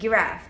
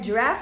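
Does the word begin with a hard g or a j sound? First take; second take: hard g; j sound. First: The word begins with a hard g sound. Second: The word begins with a soft j sound. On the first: The speaker calls it wrong. "مش giraffe" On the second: The speaker calls it right. "احنا قلناها giraffe"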